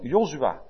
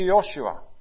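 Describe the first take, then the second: First: The name is said the Dutch way, with 'z'. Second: The name is said the English way, with 'sh'. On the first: The speaker calls it right. "met de Z" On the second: The speaker calls it wrong. "namen op de Engelse manier uitspreek"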